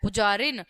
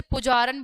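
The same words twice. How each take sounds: First: पुजारिन said with a clear i before n, pujarin; शुद्ध उच्चारण पुजारिन; correct form. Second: पुजारन said with the ई sound dropped, pujaran; गलत उच्चारण पुजारन, ई का लोप; dropped i vowel. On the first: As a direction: give पुजारिन its full i vowel. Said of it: "लेकिन होता क्या है". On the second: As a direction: say पुजारन as the wrong form, no i before n. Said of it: "पुजारन बोल दिया गया". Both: Shown as a demonstration.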